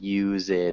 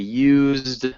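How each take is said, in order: First: It is two syllables with a vowel before d. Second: It is one syllable with no vowel before d. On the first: The speaker calls it wrong. "and not used" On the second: The speaker calls it right. "we want to say used ... there's no vowel sound in between the Z and the D"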